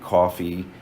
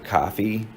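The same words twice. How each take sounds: First: The first vowel is a rounded open 'aw'. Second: The first vowel is an unrounded open 'ah'. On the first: The speaker is from New Jersey or New York. "you probably say dog and coffee. That's the aw" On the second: The speaker is from elsewhere in the country. "That's that uh, lowercase script a again"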